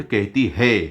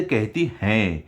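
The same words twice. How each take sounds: First: कहती है set apart, rising on a plain है; stress on है. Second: कहती हैं closed on a nasalised हैं; stress on हैं. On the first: Teacher repeats what the child said wrongly, stress on है in कहती है. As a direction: point out the wrong "कहती है", ending on an un-nasal है. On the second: Teacher models respectful speech towards elders, stress on हैं in कहती हैं. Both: Shown as a demonstration. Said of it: "तुम्हें कहना चाहिए था".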